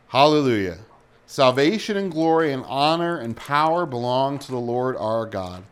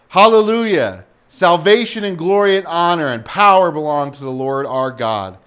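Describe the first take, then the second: First: It is read at a normal, unraised volume. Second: It is shouted loudly with high energy. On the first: The speaker calls it wrong. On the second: The speaker calls it right.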